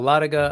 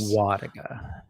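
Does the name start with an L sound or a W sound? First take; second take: L sound; W sound. First: The name begins with an L sound. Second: The name begins with a W sound. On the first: The speaker calls it wrong. "mispronounced it" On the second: The speaker calls it right. "the L is silent"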